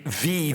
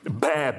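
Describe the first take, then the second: First: It begins with a v sound. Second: It begins with a b and open vowel. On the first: This is the modern Greek pronunciation. "in modern Greek, it would be" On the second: This is the ancient Greek pronunciation. "the way that sheep sound in Aristophanes"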